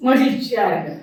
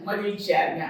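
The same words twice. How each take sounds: First: Said in the usual way. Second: மகிழ்ச்சியா இருங்க said much softer, dropping away; softer repeat. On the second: Shown as a demonstration. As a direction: echo the words softly. (மெதுவாக மீண்டும்)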